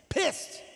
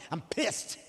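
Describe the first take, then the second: First: Pissed said high and stretched; stressed pissed. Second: Said in the usual way. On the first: Retold or imitated. Angry man repeating pissed, higher and stressed. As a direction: hit pissed hard and high.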